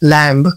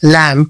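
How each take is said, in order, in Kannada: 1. ಕೊನೆಯ b ಶಬ್ದ ಉಚ್ಚರಿಸಲಾಗುತ್ತದೆ. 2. ಕೊನೆಯ b ಶಬ್ದ ಮೌನವಾಗಿದೆ.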